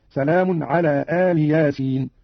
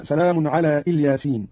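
First: "آل ياسين" slowly, as aali yaasiin with long opening alif; Qalun's Aal Yasin. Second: Said in the usual way. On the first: Shown as a demonstration. Teacher showing Qalun, "آل ياسين" drawn out as two words, aali yaasiin. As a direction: open "آل" on a long aa, lam with kasra. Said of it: "قرأ قالون بفتح الهمزة وكسر اللام". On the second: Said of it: "قرأ قالون".

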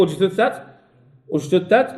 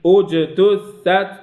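First: أجتثت with unbounced j sliding into t; rushed, no qalqala. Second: Slow أجتثت with echoed j, each letter separate; careful tahqiq reading. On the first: Teacher showing hasty reading fails, merged jim. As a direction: hurry through the j of أجتثت, as a mistake. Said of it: "لا". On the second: Teacher modelling learners' reading, slow letter by letter. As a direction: take أجتثت slowly, bouncing the j. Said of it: "بالتحقيق". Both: Shown as a demonstration.

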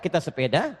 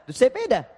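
First: "sepeda" with a short schwa in the first syllable. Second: "sepeda" with a clear open E, "sépeda"; Medan-style "sepeda". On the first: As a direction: say "sepeda" as "səpeda". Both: Shown as a demonstration. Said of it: "cara bacanya beda".

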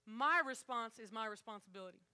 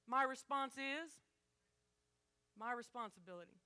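First: My stressed in a steady flow; motto again, stress on my. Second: Slow, with weight on my; slow stressed motto. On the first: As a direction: hit each my in a single line. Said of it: "repeated motto, crowd joins". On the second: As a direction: lean slowly into each my. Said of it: "repeated motto, slow first take". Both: Shown as a demonstration.

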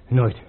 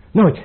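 First: Said in the usual way. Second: Nooit flung out higher and louder; defiant shout. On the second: Acted. Prince refusing to give up the throne, defiant shout. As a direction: hurl the word Nooit back at him.

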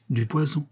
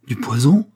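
First: Said in the usual way. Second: Loud question with rising end; shocked exclamation. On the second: A narrator's reading. Duke recoils from the flask, exclaiming in shock. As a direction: echo it aloud, recoiling in alarm. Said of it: "s'écria le duc en reculant".

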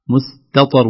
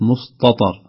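First: مستطر with a thin plain t before the heavy ṭ; light ta. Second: مستطر with the t darkened into ṭ, "mustɑtar"; heavy ta, wrong way. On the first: Teacher showing the correct reading, light t in مستطر. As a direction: keep the ت in مستطر light, slowly. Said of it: "التاء قبل الطاء". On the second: Teacher showing the mistake, heavy t in مستطر. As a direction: thicken the ت of مستطر like ط. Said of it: "وليست مستطر". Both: Shown as a demonstration.

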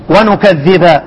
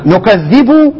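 First: ونكذب ending on a clear a, wa-nukaththiba; nasb reading. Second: نكذب ending on a clear u, nukaththibu; raf' reading. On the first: Teacher showing students the nasb reading: ونكذب with final a. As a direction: say ونكذب with fatha on the last letter. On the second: Teacher showing students the raf' reading: نكذب with final u. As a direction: say نكذب with damma on the last letter, nukaththibu. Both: Shown as a demonstration. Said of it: "فيها قراءتين".

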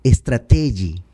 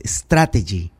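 First: Strategy said "es-tra-TEH-ji"; president's mispronunciation. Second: Strategy stressed first, "STRA-te-ji"; correct English pronunciation. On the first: Retold or imitated. Commentator quoting the president, strategy mispronounced "es-tra-TEH-ji". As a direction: stress strategy wrongly on the middle syllable, "es-tra-TEH-ji". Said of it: "Dice el presidente". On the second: Shown as a demonstration. Commentator correcting the president, strategy pronounced "STRA-te-ji". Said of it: "La palabra es strategy".

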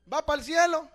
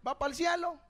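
First: Loud, challenging repeat of the question; louder repeat. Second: Said in the usual way. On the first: Real, not acted. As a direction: hit it harder the second time. (repetición más fuerte y desafiante)

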